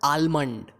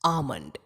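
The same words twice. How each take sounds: First: The L sound is pronounced in the word. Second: The L sound is left out of the word. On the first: The speaker calls it wrong. "It's not almond" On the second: The speaker calls it right. "इसमें L जो है वो silent है"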